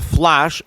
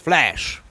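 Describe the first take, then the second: First: The vowel sounds like the one in 'flush'. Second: The vowel sounds like the one in 'flash'. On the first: The speaker calls it wrong. "It's not the Flash" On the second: The speaker calls it right. "it's Flash"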